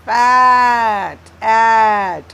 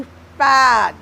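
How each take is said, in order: First: फैट and एट with the vowel drawn out long and loud; slow, held vowel in फैट, एट for pupils; stretched vowel sound. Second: Said in the usual way. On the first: Shown as a demonstration. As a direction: draw out the vowel in फैट, then echo it in एट. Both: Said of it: "ए आ रहा है vowel sound".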